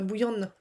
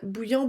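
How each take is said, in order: First: The name is said in a Breton-style way. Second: The name is said in a plain French way.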